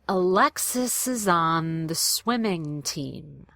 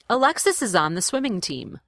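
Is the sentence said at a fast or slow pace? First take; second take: slow; fast. First: The sentence is said slowly and carefully. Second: The sentence is said at natural conversational speed. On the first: "I want to do them slowly" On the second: "the way I would say it in a real conversation"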